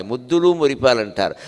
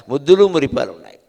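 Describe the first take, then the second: First: Said in the usual way. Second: ముద్దులు said louder on the repeat; stressed repeat. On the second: Shown as a demonstration. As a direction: hit ముద్దులు firmly, louder. (ముద్దులు పై ఒత్తి, గట్టిగా)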